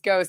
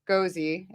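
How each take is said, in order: First: The word sounds like 'ghost'. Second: The word ends in an 'ee' sound. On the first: The speaker calls it right. "It's Ghost. It's not Gozy" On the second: The speaker calls it wrong. "if I pronounce that right"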